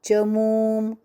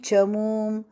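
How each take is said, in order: Both takes have the same delivery.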